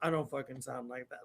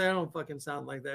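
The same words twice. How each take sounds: First: Very low, hushed mock dad voice; son mimicking dad. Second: Low, quick, softer protest; dad's protest. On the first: Son throwing dad's protest back, in a low mocking voice. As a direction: drop low and soft to parody dad. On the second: Retold or imitated. Dad objecting to his son's impression, low and quick. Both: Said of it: "impressions of me".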